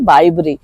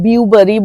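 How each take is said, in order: First: The first syllable sounds like 'bye'. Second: The first syllable sounds like 'bew'. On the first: The speaker calls it right. "এটা বিউবারি না, এটা হচ্ছে বাইবরি" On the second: The speaker calls it wrong. "ভুল উচ্চারণ করতাম, বিউবারি বলতাম, বি ইউ বলে উচ্চারণ"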